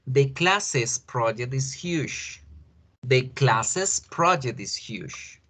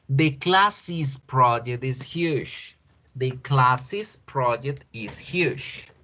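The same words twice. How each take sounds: First: Classes said as \"klases\", slow and clear; slow model English. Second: Classes said as \"klasis\", slow and clear; slow model English. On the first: Teacher modeling the second version for the class. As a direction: read it slowly, \"classes\" with an \"es\" ending. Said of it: "La segunda". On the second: Teacher modeling slowly for the class. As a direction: read it slowly, \"classes\" with an \"is\" ending. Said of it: "Escuchemos. La primera". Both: Shown as a demonstration.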